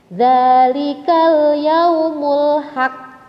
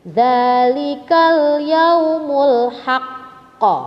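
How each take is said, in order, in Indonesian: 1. Huruf q terakhir berhenti tanpa pantulan yang terdengar. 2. Huruf q terakhir berakhir dengan pantulan yang jelas terdengar. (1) "itu tidak ada pantulan" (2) "dia harus memantulnya terdengar, ya. Jelas sekali"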